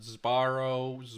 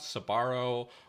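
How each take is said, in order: First: The word begins with a buzzing z before b. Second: A short vowel separates the s and b. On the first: "they make this into like a Z" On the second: "they put an empathetic schwa"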